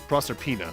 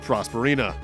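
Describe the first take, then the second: First: The middle of the name sounds like 'serp'. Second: The middle of the name sounds like 'sper'. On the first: The speaker calls it right. "Or no" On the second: The speaker calls it wrong. "I've been mispronouncing that castle's name wrong my entire life"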